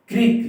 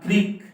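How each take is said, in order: First: Crick with the क punched high and loud; stress on the k. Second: Said in the usual way. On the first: Shown as a demonstration. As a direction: hit the क of Crick hard and high. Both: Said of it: "क पर जो है ज्यादा जोर पड़ता है".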